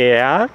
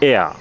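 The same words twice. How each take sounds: First: এয়ার drawn out, final r sounded; slow pronunciation. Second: এয়া said short, r softened to a; quick pronunciation. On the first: Teacher showing learners the German word for he, slow pronunciation. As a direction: say এয়ার slowly, with the r at the end. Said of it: "আস্তে উচ্চারণ করলে". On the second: Teacher showing how the word sounds said fast, quick pronunciation. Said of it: "দ্রুত করলে সেটা হয়ে যাচ্ছে". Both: Shown as a demonstration.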